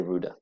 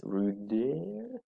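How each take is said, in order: First: Said in the usual way. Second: "ruder" softer with a rising open "eh" ending, ruder-EH; wrong ruder. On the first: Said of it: "We say ruder, like this". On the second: Shown as a demonstration. Teacher demonstrating to pupils the wrong way to say ruder. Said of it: "We do not say this".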